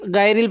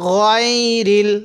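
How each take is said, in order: First: The first vowel sounds like an open 'ah'. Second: The first vowel sounds like a rounded 'oh'. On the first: The speaker calls it wrong. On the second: The speaker calls it right.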